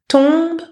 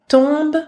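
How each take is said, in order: No difference in how they are said.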